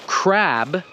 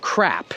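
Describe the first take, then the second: First: Crab with a strong voiced B; crab, B clearly released; clear voiced final b. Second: Crap with a strong popped P; crap, P clearly released; crisp final p. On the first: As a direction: finish crab on a firm B. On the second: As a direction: pop the P of crap. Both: Shown as a demonstration. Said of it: "the correct English pronunciation of".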